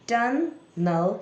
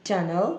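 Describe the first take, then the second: First: "tunnel" split into tun, nel, raised in pitch; syllable by syllable. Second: Said in the usual way. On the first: Shown as a demonstration. Teacher breaks the word while reading along, syllable by syllable. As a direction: say "tunnel" as two separate beats, higher. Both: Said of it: "साथ साथ syllable को तोड़ते रहें".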